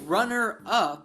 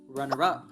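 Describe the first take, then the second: First: The two words are said separately. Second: The two words are linked together. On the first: "instead of saying" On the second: "Lord Farquaad says runner up. Natives do this all the time"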